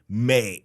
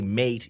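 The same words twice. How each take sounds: First: The final T is dropped. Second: The final T is clearly pronounced. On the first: The speaker calls it right. "You say mate, and you leave it at that" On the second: The speaker calls it wrong. "You you don't say mate"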